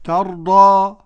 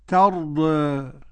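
First: The final vowel is a fully open a. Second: The final vowel sits halfway between a and e. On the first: "قرأها بالفتح والتقليل" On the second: "قرأها بالفتح والتقليل"

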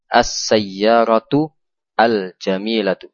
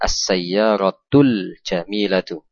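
First: The article 'al' is pronounced clearly as separate. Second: The article is joined directly onto the previous word. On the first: "Sengaja kita baca dengan menjelaskan al-nya" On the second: "cara membacanya yang betul ialah langsung disambung"

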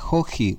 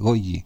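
First: The word begins with a throaty h-like sound. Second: The word begins with a hard g sound. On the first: This is how Spanish spelling would suggest reading it. The speaker calls it wrong. "Debería decirse joji" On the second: This is the accepted way to say the name. The speaker calls it right. "pero no, es goji"

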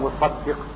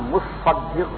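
First: The middle s sound is short, single. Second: The middle s sound is held long, doubled. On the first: The one who collects the alms. "اگر سعاد پر تسدید نہ ہو تو یہ ساری ہے" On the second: The one who pays the alms. "اگر سعاد کی تسدید ہو تو یہ زکات ادا کرنے والا ہے"

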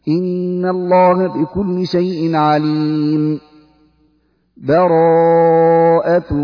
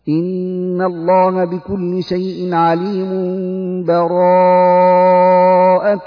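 First: A full stop with a breath separates them. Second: The verses run together with no pause. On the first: "الوقف على آخر الأنفال مع أخذ نفس" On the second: "هذا يسمى الوصل"

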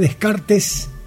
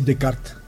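First: The final S sound is pronounced. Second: The final S sound is silent. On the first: This is how the name is spelled. The speaker calls it wrong. "aunque se escribe Descartes" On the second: This is how the name is actually said. The speaker calls it right. "se dice Descartes"

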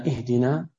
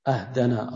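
First: The word begins with an 'i' vowel. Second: The word begins with an 'a' vowel. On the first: It asks to be guided. The speaker calls it right. "أما إهدنا من الهداية" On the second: It asks to be given a gift. The speaker calls it wrong. "يعني يقول أهدنا أهدنا الصراط المستقيم، أهدنا من الهدية"

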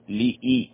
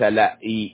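First: The first syllable has an 'i' vowel. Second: The first syllable has an 'a' vowel. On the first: The speaker calls it right. "اللام مكسورة" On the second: The speaker calls it wrong. "ليس لا إي خطأ"

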